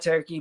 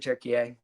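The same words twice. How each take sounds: First: It is said the English way, two syllables. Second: It is said the Turkish way, three syllables. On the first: This is the common English name. "you can call it Turkey" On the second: This is the country's real name. "but it's really Turkey"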